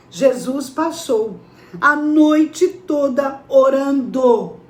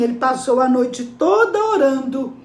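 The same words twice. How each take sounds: First: NOITE TODA ORANDO drawn out, very slow; slow, weighty pauses between "passou", "noite", "toda" and "orando"; solemn emphasis. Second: Said in the usual way. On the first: Real, not acted. Preacher repeats it for emphasis.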